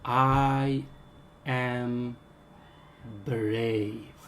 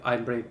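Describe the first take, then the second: First: The phrase is spoken very slowly. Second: The phrase is spoken very fast. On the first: "Start to speak very slowly" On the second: "start to pronounce very fast"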